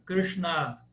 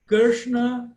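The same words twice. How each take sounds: First: Krishna with long open final A; 'krish-NAA' for feminine Krishna; feminine form. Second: Krishna with short final A; loud, high Krishna, stressed on first syllable; 'KRISH-na' for masculine Krishna; masculine form. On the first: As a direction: stretch the last A in Krishna. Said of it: "é o feminino do nome". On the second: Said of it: "Paulo, Paula, Cláudio, Cláudia". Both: Shown as a demonstration.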